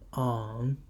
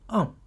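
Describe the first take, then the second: First: The syllable is said with the third tone. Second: The syllable is said with the fourth tone.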